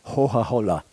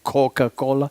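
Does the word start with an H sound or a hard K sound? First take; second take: H sound; hard K. First: The C sounds are breathy H sounds. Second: The C sounds are hard K sounds. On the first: "is pronounced like an aspirated H, like Hoha-Hola" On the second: "the hard C, the C, like Coca-Cola"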